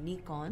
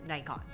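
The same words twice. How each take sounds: First: The first vowel sounds like 'ee'. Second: The first vowel sounds like 'eye'. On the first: It is the original Japanese pronunciation. "it's a Japanese company, so the correct way to pronounce it would be Nikon" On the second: It is the usual English pronunciation. "in English, we pronounce the I from Nikon as I"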